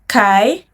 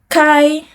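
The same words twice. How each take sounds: First: The pitch rises from mid to high. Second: The pitch stays high and level.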